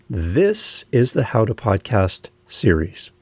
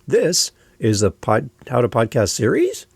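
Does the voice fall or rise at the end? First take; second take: fall; rise. First: The voice falls at the end. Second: The voice rises at the end.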